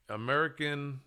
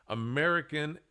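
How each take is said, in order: Both takes have the same delivery.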